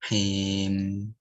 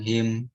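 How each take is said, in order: First: The final m is held with a slight nasal hum. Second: The final m stops abruptly with no hum. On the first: The speaker calls it right. "tapi ada him, hmm" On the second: The speaker calls it wrong. "nggak langsung him"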